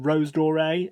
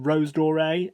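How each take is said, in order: First: The name is said with an English accent. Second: The name is said with an English accent.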